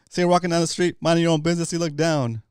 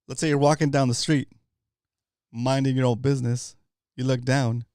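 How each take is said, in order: First: It is said at a faster pace. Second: It is said at a slower pace.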